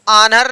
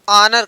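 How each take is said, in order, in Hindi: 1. पहला स्वर खुला 'aa' ध्वनि है। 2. पहला स्वर गोल 'o' ध्वनि है। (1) "आनर नहीं भैया" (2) "ऑनर कार्ड्स"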